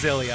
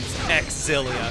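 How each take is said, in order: First: The name begins with a plain 'z' sound. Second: The name begins with a clear 'ks' sound. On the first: The speaker calls it right. "If it was just Zillia" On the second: The speaker calls it wrong. "If if we're going by canon pronunciations"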